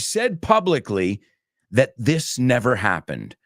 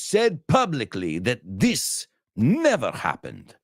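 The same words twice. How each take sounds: First: It is said without a French accent. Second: It is said with a French accent.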